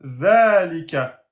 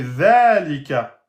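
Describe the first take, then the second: The two takes are said the same way.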